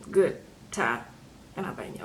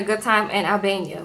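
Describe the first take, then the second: First: Low, soft, doubtful "good time"; dry, trailing-off second thought; skeptical aside. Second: Said in the usual way. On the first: Real, not acted. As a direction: drop it low as if taking it back. Doubting her own words after "Well.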